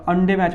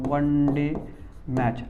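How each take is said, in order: First: The word 'one' begins with a vowel sound. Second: The word 'one' begins with a w sound. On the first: The speaker calls it wrong. "आपण याला अंडे match म्हणत नाही" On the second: The speaker calls it right. "आपण असं उच्चारण करतो"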